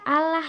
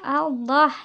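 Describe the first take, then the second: First: The l is thin and the vowel sounds like a. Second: The l is thick and the vowel sounds like o. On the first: The speaker calls it wrong. "bukan Allah ya" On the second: The speaker calls it right. "seperti bunyi O"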